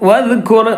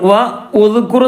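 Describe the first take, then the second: First: The words are linked with no separate vowel. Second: A separate 'u' vowel is voiced after 'wa'. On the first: The speaker calls it right. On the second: The speaker calls it wrong.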